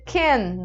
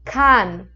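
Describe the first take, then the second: First: The vowel sounds like English can. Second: The vowel is a very open a. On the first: The speaker calls it wrong. "também não posso dizer can, do inglês" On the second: The speaker calls it right. "bem aberto"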